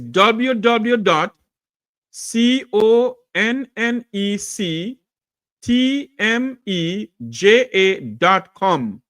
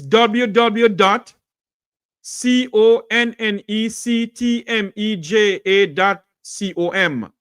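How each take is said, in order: First: It is said a bit more slowly. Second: It is said at a normal pace.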